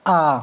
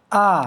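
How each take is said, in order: First: A quick, clipped short vowel a. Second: आ held out as a long vowel. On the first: Teacher showing students the short vowel आ, said briefly. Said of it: "हमने बोला". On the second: Teacher showing students the long vowel आ, drawn out. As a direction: stretch आ into a long aa. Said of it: "अब इसी तरीके से हमने बोला". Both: Shown as a demonstration.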